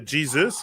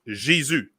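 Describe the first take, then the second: First: The name is said with English pronunciation. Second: The name is said with French pronunciation. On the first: "It's the same word, just pronounced different" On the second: "Jesus in French is Jésus"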